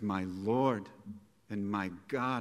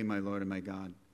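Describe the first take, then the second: First: The words are said in a passionate, energetic voice. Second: The words are said in a flat, calm voice. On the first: A heartfelt exclamation of complete surrender. The speaker calls it right. "He says, ... I believe he said it with all the passion and emotion and energy that he had within him" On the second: A plain statement without strong feeling. The speaker calls it wrong. "He doesn't say"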